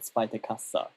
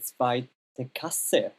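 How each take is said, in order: First: The last word ends in an 'a' vowel. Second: The last word ends in an 'e' vowel. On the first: This is how it is said in Austria. "not zweite Kassa" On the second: This is how it is said in Germany. "in Germany you say zweite Kasse"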